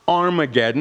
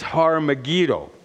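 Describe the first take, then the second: First: The word begins without an h sound. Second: The word begins with an h sound. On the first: The speaker calls it wrong. "It's not Armageddon" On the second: The speaker calls it right. "it's Har-Megiddo. Har. They dropped the H again"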